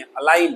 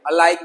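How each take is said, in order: First: अलाइन said as a-line with no g; silent g. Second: अलाइगन said with a hard g, as the mistake; wrong g sounded. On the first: Teacher giving students the right form, silent g. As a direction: drop the g in अलाइन entirely. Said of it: "जी silent है". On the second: Teacher showing students the wrong way, g pronounced. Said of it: "अलाइगन नहीं है". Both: Shown as a demonstration.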